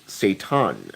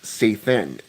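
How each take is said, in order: First: The middle consonant is a plain t sound. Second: The middle consonant is a th sound. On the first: "a lot of people pronounce it Satan, as in S A T A N" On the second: "in the Talmud, his name is pronounced Sathan, as in S A T H A N"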